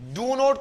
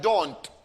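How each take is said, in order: First: It is said as two separate full words. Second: It is squeezed into one short syllable. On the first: "डू नोट को short में डोंट बोला जाता है" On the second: "short में डोंट"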